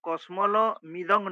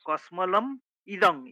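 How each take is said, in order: First: The break falls before the m sound. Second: The break falls after the m sound. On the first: The speaker calls it wrong. "কসমল মিদং নয়" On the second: The speaker calls it right.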